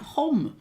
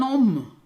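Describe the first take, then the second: First: The word starts with an audible H sound. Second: The word starts with a vowel, no H sound. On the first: "rather than an hom" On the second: "they don't pronounce the H's"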